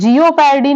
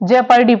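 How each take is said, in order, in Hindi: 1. शब्द 'jee-oh' ध्वनि से शुरू होता है। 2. शब्द छोटी 'jeh' ध्वनि से शुरू होता है। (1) "जियो पैरडी नहीं पढ़ते" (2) "जेपर्डी पढ़ते हैं"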